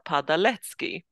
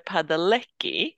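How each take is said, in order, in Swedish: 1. Namnet uttalas med polska ljud. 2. Namnet uttalas med engelska ljud. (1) "jag på polska skulle säga Padalecki" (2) "det är att de säger Padalecki"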